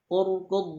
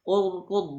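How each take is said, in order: Both takes have the same delivery.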